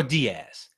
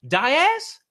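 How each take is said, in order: First: Diaz said DEE-az, falling; DEE-az pronunciation. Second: Diaz said DY-az, high questioning rise; DY-az pronunciation. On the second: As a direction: say Diaz with a long "eye" first: DY-az. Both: Shown as a demonstration. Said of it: "How do you pronounce that?".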